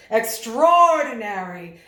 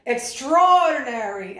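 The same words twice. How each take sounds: First: "Extraordinary" slow and much louder; powerful emphasis. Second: "Extraordinary" slow, louder, drawn out; expansive emphasis. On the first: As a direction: claim the room with it. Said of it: "assert your dominance and your power". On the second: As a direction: open it up wide. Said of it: "really lifted and opened his arms". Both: Shown as a demonstration.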